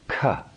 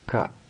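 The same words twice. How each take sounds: First: The k has a strong puff of breath. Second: The k has almost no breath after it. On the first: "The second sound has the full force of the breath" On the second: "So the first one, the first consonant is a breathless sound. The breath is minimized"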